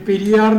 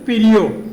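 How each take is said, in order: First: The last syllable has an 'aa' vowel. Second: The last syllable has an 'oo' vowel. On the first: The speaker calls it wrong. "അങ്ങനെയല്ല പറയേണ്ടിയിരുന്നത്" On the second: The speaker calls it right.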